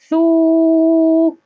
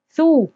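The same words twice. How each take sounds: First: The u vowel is long. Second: The u vowel is short. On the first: "صوت طويل مع حركة الضم" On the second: "صوت قصير مع الضم"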